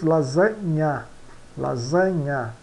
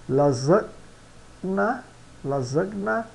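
First: LASANHA with a NY sound, "la-ZA-nya"; Italian pronunciation. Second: LASAGNA with a hard G before N, "la-zeg-na"; read as spelt. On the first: Teacher models Italian lasagna, GN as NY. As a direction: melt the GN into NY in lasanha. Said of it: "é pronunciado como o N H". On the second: Teacher shows learners the written word, G sounded. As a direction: sound G and N apart in lasagna, rising. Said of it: "pronunciamos lasanha". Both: Shown as a demonstration.

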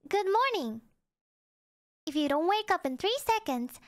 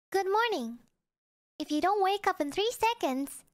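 Both takes have the same delivery.

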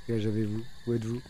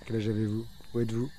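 No difference in how they are said.

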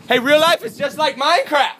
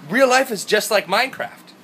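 First: Very high, loud yell held throughout; screaming. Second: Raised, louder, dawning excitement; excited realisation. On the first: Vlogger yells his Minecraft discovery from hotel, screaming. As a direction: scream it out to everyone around. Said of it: "screaming about Minecraft". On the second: Vlogger realises real life resembles the game, excited realisation. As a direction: exclaim it, short of screaming. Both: Acted.

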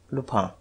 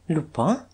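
First: Low, quiet statement of the name; name him quietly, falling at the end; subdued, ominous reply; grave answer. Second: Name repeated with rising pitch; incredulous, rising query; questioning echo. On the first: Detective's grave one-word answer. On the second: Duke echoes the name, incredulous. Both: A narrator's reading.

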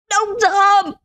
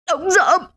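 First: Even higher, harder repeat of the name; the last and most desperate call; desperate final cry. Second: Dying man's cry. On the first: Dying man calls his friend once more, higher. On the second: Dying man cries out to his friend, first call. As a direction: cry out the name with the last breath. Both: A narrator's reading. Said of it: "Ông Doãn gào lên".

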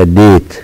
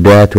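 First: ديت with "ay", like "date"; long a name sound. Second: دات with an open "a", like "dat"; short a, wrong reading. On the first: Teacher correcting the word to long a. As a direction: say ديت with the letter's name as vowel. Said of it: "وإنما ديت". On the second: Teacher showing what we don't say, short a. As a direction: say دات without the "ay" glide. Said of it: "لا نقول دات وإنما ديت". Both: Shown as a demonstration.

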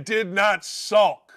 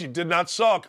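First: Very slow, separated "did not sulk"; emphatic repeat. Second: Said in the usual way. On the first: Real, not acted. Host repeats himself to drive it home, very slow "did not sulk". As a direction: spell out "did not sulk" one drawn-out word at a time. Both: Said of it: "Let me say it again".

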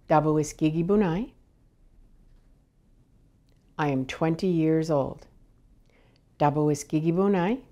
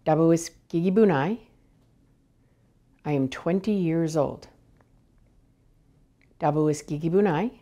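No difference in how they are said.

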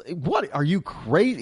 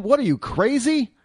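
First: Incredulous retort. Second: Much higher, disbelieving mock reply; incredulous retort. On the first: Retold or imitated. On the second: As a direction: toss it back as if the question is absurd. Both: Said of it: "He's basically telling him".

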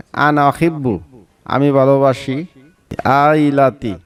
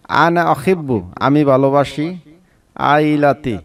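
No difference in how they are said.

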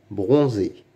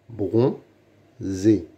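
First: Said in the usual way. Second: "Bronzé" as bron, pause, zé; syllable by syllable. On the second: Shown as a demonstration. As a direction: sound out "Bronzé" in two separate beats. (« Bronzé » découpé syllabe par syllabe) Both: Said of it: "Lis les mots".

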